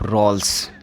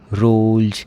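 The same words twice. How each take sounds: First: The word ends with a hissing s sound. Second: The word ends with a buzzing z sound. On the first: The speaker calls it wrong. "ये नहीं बोलेंगे आप रोल्स" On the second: The speaker calls it right. "इसका pronunciation जय करेंगे"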